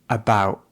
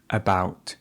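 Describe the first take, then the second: First: The final t is glottal. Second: The final t is released. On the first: "She said about" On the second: "instead of about"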